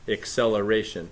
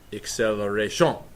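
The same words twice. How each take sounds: First: It is said with a plain English accent. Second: It is said with a French accent.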